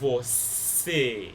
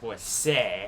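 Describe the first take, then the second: First: The final vowel is a closed e. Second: The final vowel is an open e. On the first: The speaker calls it right. "you're pronouncing it você" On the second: The speaker calls it wrong. "You're not going to pronounce it você"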